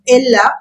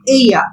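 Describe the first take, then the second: First: The middle consonant is sounded like an L. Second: The middle consonant is sounded like a Y. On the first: The speaker calls it wrong. "we don't say ella" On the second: The speaker calls it right. "Double L is pronounced as Y in Spanish"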